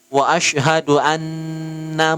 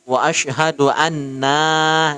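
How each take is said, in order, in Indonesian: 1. Vokal setelah n dibaca pendek. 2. Vokal setelah n dibaca panjang. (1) "Nanya pendek" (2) "kalau salah di wa asyhadu anna, nah terpanjang di situ"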